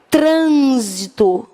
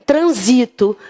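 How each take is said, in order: First: Trânsito drawn out with the weight on TRÂN; stress on TRÂN. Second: Transito with the weight on the middle syllable SI; stress on SI. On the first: Teacher reading the noun aloud to the class, stress on TRÂN. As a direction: say trânsito slowly, leaning on the first syllable TRÂN. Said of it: "Quando ele falou substantivo, eu leio". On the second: Teacher contrasting the verb form for students, stress on SI. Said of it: "Se ele tivesse dito verbo". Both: Shown as a demonstration.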